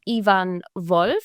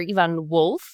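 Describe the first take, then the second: First: The name is pronounced the German way. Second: The name is pronounced the English way.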